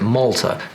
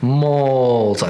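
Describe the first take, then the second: First: The first vowel is short and natural. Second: The first vowel is drawn out long. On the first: The speaker calls it right. "Malta is how we say it" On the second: The speaker calls it wrong. "not Malta. ... the long vowel over applied"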